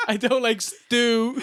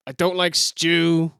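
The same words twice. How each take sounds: First: Laughing through the stew line; giggling as you repeat it; cracking up mid-quote. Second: Slow and sheepish; deadpan mock shyness; sheepish heel line; shy, slow mock promo. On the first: Retold or imitated. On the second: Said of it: "It was a shy promo".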